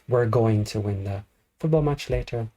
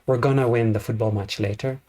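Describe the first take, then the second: First: 'Going to' is said as two full words. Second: 'Going to' is contracted into a single reduced word. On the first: This is the British English way to say it. "Going to would be British English" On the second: This is the typical American English way to say it. "It's very typical Brit American English"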